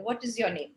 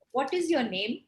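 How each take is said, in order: First: "What is your name?" going down in pitch to the end; falling tone. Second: "What is your name?" with the pitch rising at the end. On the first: Teacher asking as if no emotion is shared, falling tone on "What is your name?". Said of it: "you use a falling tone". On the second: Teacher showing how to ask a small child, rising tone on "What is your name?". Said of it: "same sentence in a rising tone". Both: Shown as a demonstration.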